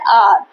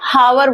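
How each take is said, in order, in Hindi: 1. यह शब्द वॉवल की आवाज़ से शुरू होता है। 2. यह शब्द h की आवाज़ से शुरू होता है। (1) "आपका वॉवल साउंड हो गया" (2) "हावर जैसे ही बोला तो ए हावर हो जाता है तो वो गलत हो जाता है"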